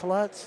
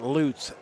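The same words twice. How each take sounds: First: The vowel sounds like the one in 'but'. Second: The vowel sounds like the one in 'loot'. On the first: The speaker calls it wrong. "everybody calls Bill Bill Lutz like Jeff Lutz" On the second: The speaker calls it right. "Bill's name is pronounced like L O O T S"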